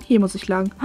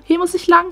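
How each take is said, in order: First: Said in the usual way. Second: Higher sing-song line with lang drawn up. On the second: Pretend. Lost rider answering herself, higher sing-song. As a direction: chirp Hier muss ich lang in a higher tune. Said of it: "Wo muss ich lang?".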